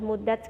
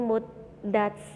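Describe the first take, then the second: First: The d sound is short and not held. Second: The d sound is held and doubled. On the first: The speaker calls it wrong. "nggak boleh muddat gitu doang, nggak boleh" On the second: The speaker calls it right. "jadi harus ditekan"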